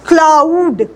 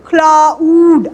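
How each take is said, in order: First: Said in the usual way. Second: क्लाउड stretched slowly, the vowel gliding from आ to ऊ; slow diphthong demo. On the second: Shown as a demonstration. Teacher to class, slow exaggerated diphthong. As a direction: draw out क्लाउड so the mouth shape visibly changes. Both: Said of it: "मेरे जो face की जो आप देख रहे हैं shape change".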